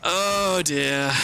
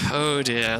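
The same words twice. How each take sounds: First: "Oh dear." sung out higher in mock dismay; a theatrical, higher "Oh dear." at losing runes; exaggerated dismay. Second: Said in the usual way. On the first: Real, not acted. Run back to lost runes.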